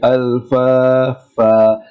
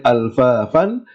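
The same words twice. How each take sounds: First: The word ends with a lengthened vowel, no n. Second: The word ends with a short vowel plus n. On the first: The reciter stops on this word. The speaker calls it right. "we say ... That's because we are stopping" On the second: The recitation continues without stopping. The speaker calls it wrong. "Rather than saying"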